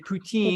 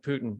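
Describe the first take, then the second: First: The name is said with French pronunciation. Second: The name is said with American pronunciation. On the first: "which is what the French say" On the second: "the American pronunciation of Putin"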